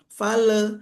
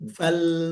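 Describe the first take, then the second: First: A vowel is added after the l. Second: The l ends the syllable with no vowel. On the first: The speaker calls it wrong. "fale itu salah" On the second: The speaker calls it right. "Harus betul-betul mati"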